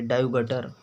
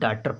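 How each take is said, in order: First: The first vowel is split into separate a and u sounds. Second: The first vowel is one long aa sound. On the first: The speaker calls it wrong. "इसको डायुगटर पढ़ लेंगे" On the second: The speaker calls it right. "डाटर पढ़ते हैं"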